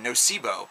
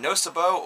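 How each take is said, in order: First: It is pronounced to sound like placebo. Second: It is pronounced unlike the word placebo.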